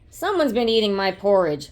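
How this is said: It is roared in a loud, deep voice.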